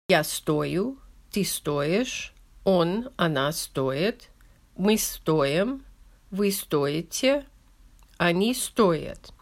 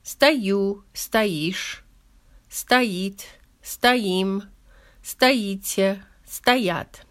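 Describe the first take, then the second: First: Slow conjugation of стоить, stress on the first syllable: СТО-ю, СТО-ишь, СТО-ит. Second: Conjugation of стоять, stress on the ending: сто-Ю, сто-ИШЬ, сто-ИТ; stress on second syllable. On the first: Teacher reading the conjugation aloud to learners, stress on first syllable. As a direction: lean on СТО in every form, slowly, each form with its own rise. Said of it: "the stress is on the first syllable, like I just read".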